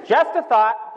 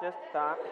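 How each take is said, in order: First: Higher, punched tag line; punched aside. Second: Much softer, dropped tag line; quiet afterthought. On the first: Storyteller needling the thoughtless bro, punched high. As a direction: toss it out high as a pointed hint. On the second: Storyteller repeating his jab to himself, hushed afterthought. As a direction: let it fall away as a soft afterthought. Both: Real, not acted.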